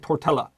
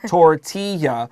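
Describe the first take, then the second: First: The double L is pronounced as an L sound. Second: The double L is not pronounced as L. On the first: The speaker calls it wrong. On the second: The speaker calls it right.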